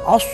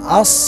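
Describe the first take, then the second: First: Rounded lips, giving an o-like vowel. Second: Unrounded lips, with a slight whistle-like hiss. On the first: The speaker calls it wrong. "Jadi bukan os, os, kagak ada ikut sertanya itu dua bibir" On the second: The speaker calls it right. "as seakan-akan ada siulan"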